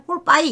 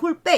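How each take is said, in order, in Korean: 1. 마지막 음절은 미끄러지는 이중모음으로 끝나요. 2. 마지막 음절은 평범한 모음 하나로 끝나요. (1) "사실은 홀빠이 이렇게 읽었어요" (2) "우리는 그냥 홀빼 이렇게 했는데"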